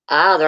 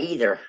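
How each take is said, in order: First: "either" starting with "eye"; eye-ther pronunciation. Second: "either" starting with "ee"; ee-ther pronunciation. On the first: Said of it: "I don't say either". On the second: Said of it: "I usually say either". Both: Shown as a demonstration.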